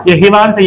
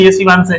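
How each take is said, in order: First: हिवांश said with a plain h in place of sh; wrong h sound. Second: शिवांश with a clear sh at the start; correct sh sound. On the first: Teacher showing the mistaken हिवांश to the class. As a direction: say हिवांश, swapping the sh for h. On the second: Teacher giving the correct शिवांश after the wrong one. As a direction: give शिवांश its proper sh sound. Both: Shown as a demonstration. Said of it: "और शिवांश है तो शिवांश".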